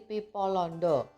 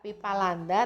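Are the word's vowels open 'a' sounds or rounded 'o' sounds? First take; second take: rounded o; open a. First: The vowels are rounded 'o' sounds. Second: The vowels are open 'a' sounds.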